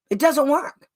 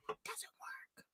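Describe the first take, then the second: First: Said in the usual way. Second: Breathy whispered aside; hushed, unvoiced repeat. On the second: Real, not acted. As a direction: drop to a bare whisper.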